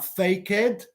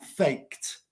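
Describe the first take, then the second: First: The ending is an extra syllable with a vowel. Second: The ending is a plain t sound, no vowel. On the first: The speaker calls it wrong. "no se pronuncia faked" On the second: The speaker calls it right. "se pronuncia faked, porque es K E D"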